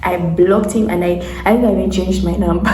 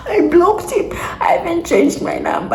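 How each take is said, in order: First: Said in the usual way. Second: High, squeaky voice through laughter; laughing. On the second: Real, not acted. Storyteller cracking up over blocking the man, laughing. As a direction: repeat it helpless with laughter, voice shooting up. Laughs as repeating what they did.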